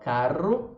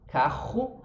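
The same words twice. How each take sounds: First: The R is tapped by the tongue tip. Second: The R is a raspy sound from the throat. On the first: "que é atrás do dente aqui em cima" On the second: "O R aqui na garganta, que é o som do pigarro"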